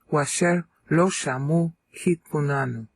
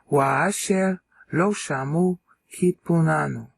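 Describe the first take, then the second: First: Wa and asher are run together as washer. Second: Wa and asher are said as separate syllables. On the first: "That makes it nine" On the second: "Now that ends up being ten syllables"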